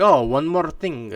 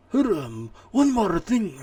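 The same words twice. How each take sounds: First: Slow, drawn-out attempt at a Japanese accent, with a slightly raised pitch; a half-hearted Japanese-accented quote, slowed right down; mock Japanese accent. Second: Much higher-pitched, exaggerated Japanese accent that opens with a grunted "hurum"; second try at Japanese accent. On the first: Streamer imitating Kojima's closing tease in a weak Japanese accent. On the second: Streamer retrying the Kojima line in a hammed-up Japanese accent. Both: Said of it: "I can't do a Japanese accent".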